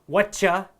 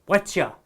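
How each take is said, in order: Both takes have the same delivery.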